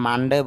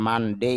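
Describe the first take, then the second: First: "মানডে" with a short, simple "de" ending; "মানডে" with a quick final vowel and no glide; common pronunciation. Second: "মানডে" with a drawn-out "dei" glide; "মানডে" ending in a long rising "ei"; correct pronunciation. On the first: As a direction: say "মানডে" the everyday Bangla way, as "man-de". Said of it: "যদি আমরা মানডে বলি". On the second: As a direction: say "মানডে" carefully as "man-DEI", lifting at the end. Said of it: "শুদ্ধ উচ্চারণটা হবে মানডে". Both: Shown as a demonstration.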